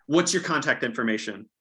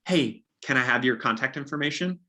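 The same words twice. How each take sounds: First: Your stressed, falling statement tune; assumptive statement. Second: Rising, asking tune on information; asking permission. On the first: Agent assuming buyers will share details, falling and sure. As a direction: say it as a given, not a request. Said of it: "You're saying". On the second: Agent wrongly asking buyers for permission, rising question. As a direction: ask it as a tentative request, ending up. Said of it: "you don't ask them permission". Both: Shown as a demonstration.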